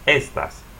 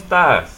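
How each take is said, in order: First: The stress is on the first syllable. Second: The stress is on the last syllable. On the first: The speaker calls it wrong. "normally you stress the next to the last syllable" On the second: The speaker calls it right. "put a stress here"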